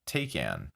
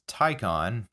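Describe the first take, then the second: First: The name is said the way it is spelled. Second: The name is not said as its spelling suggests. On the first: The speaker calls it wrong. "not Taycan, as it might lead you to believe" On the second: The speaker calls it right. "it is Taycan"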